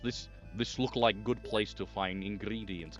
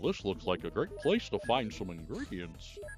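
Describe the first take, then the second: First: It is said in a put-on Serbian accent. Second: It is said in a put-on cartoon voice. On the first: "Goofy in Serbia" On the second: "that doesn't sound anything like Goofy"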